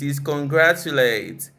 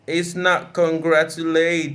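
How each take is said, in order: First: The stress falls on the third-last syllable. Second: The stress falls on a different syllable. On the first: The speaker calls it right. "usually stressed on the third syllable from the end" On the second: The speaker calls it wrong. "It's not"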